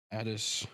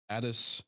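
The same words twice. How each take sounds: The two takes are said the same way.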